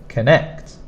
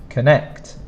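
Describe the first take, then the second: No difference in how they are said.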